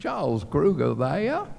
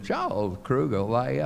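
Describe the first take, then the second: First: Higher, louder insistent caller; imitating Mrs. Kruger. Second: Imitating Mrs. Kruger. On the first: Mrs. Kruger calling the camp again, insistent mimicry. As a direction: mimic a mother who keeps phoning. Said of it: "In five, ten, fifteen minutes". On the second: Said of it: "Missus Kruger called and said".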